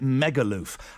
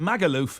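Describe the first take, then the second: First: The first vowel sounds like 'met'. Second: The first vowel sounds like 'cat'. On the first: This is how the singer says it in the song. "but he pronounces it Megaloof" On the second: This is the usual way to say the place name. "you pronounce it Magaloof"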